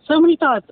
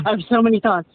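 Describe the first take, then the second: First: Higher and louder on many; overwhelmed burst. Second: Said in the usual way. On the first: Real, not acted. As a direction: let it burst out, MANY pushed up high. Overwhelmed guest repeats her phrase.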